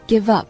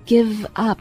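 First: The two words are joined smoothly together. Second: The two words are said separately.

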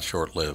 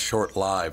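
First: The vowel in 'lived' is short, like 'live'. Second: The vowel in 'lived' is long, like 'life'. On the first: The speaker calls it wrong. "not short-lived" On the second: The speaker calls it right. "It's supposed to be pronounced short-lived ... It's like short-lifed"

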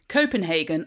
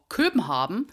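First: The name is pronounced the usual English way. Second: The name is pronounced the Danish way.

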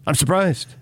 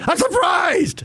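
First: It sounds only mildly surprised. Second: It sounds strongly shocked and stunned.

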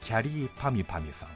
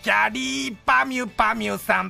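First: It is said in the speaker's normal voice. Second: It is said in a Doraemon impression voice.

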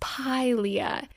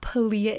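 First: The word is said with the newly looked-up pronunciation. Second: The word is said the way the speaker used before. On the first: The speaker calls it right. "It's Pilea" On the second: The speaker calls it wrong. "I was saying it wrong. It's not Pilea"

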